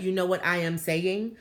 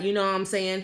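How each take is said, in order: First: Careful, uncontracted English with a foreign accent; accented proper English. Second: Said in the usual way. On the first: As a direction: imitate a formal foreign-accented speaker. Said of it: "he was talking like that". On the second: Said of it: "he wasn't like".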